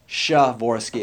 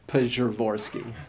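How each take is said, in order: First: It starts with no P sound at all. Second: It starts with a full, clearly spoken P. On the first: "it's not just Shavorsky" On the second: "but it's not Pshavorsky"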